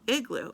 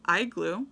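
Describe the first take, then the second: First: It begins with the short vowel of 'it'. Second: It begins with the long vowel of 'ice'. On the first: The speaker calls it right. "But it is I, I, igloo" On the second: The speaker calls it wrong. "It's not igloo"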